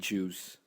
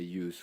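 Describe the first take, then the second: First: The name starts with a J sound. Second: The name starts with a Y sound. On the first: This is the name's actual form. "It's actually Juice" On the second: This is the speaker's habitual way of saying it. "I just say Use"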